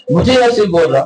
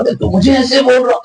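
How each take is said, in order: First: Said in the usual way. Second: High, indignant protest from the retold quarrel; a touch of mock outrage at the insult; offended protest. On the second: Hakeem protests to the maulvi, in high mock indignation. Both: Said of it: "اس کو غصہ آ رہا".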